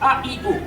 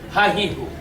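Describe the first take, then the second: First: The syllables begin with a plain vowel. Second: The syllables begin with an h sound. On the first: The speaker calls it right. "হামজা জবর আ" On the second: The speaker calls it wrong. "অথচ সম্পূর্ণ ভুল"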